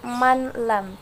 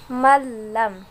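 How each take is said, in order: First: The n is pronounced separately before the l. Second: The n merges completely into the l. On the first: The speaker calls it wrong. "tidak boleh dibaca manlam" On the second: The speaker calls it right. "tapi masuk malam"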